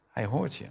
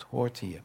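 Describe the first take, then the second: First: Hoort lifted higher with a rising tune; stress on hoort. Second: Said in the usual way. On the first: Shown as a demonstration. Preacher insists God hears them, stressing hoort. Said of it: "maar hij hoort je".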